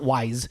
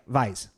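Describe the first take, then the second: First: The name begins with a W sound. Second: The name begins with a V sound. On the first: The speaker calls it wrong. "It's not wise" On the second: The speaker calls it right. "The W is pronounced with a V, like it's like German"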